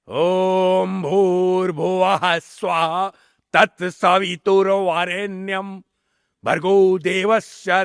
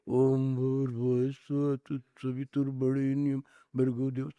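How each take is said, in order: First: Every syllable is articulated fully and clearly. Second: It is mumbled softly with little mouth movement. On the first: This is the native way of pronouncing it. The speaker calls it right. "ये आपका उच्चारण है।" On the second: This imitates an English speaking style. The speaker calls it wrong. "आपका उच्चारण ऐसे नहीं है"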